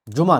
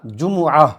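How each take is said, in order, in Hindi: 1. 'm' और 'a' के बीच कोई स्वर सुनाई नहीं देता। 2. 'm' और 'a' के बीच 'u' स्वर सुनाई देता है। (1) "जुमा नहीं" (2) "लफ्ज़ क्या बना, जुमुआ"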